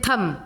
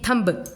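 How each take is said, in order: First: The word ends without a b sound. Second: The word ends with an audible b sound. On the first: The speaker calls it right. "इसको बोलते हैं थम" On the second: The speaker calls it wrong. "नहीं कि थंब, ऐसे नहीं बोलते"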